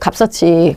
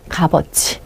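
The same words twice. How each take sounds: First: The whole final cluster links into the next syllable. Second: The final cluster is not fully linked over. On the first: This follows the general rule for suffixes. The speaker calls it wrong. "이걸 그대로 연음해줘야 돼요. 그래서 값어치가 돼야 돼요" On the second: This is a special exception to the rule. The speaker calls it right. "근데 그게 아니에요. 얘는 뭐라고 발음하셔야 돼요?"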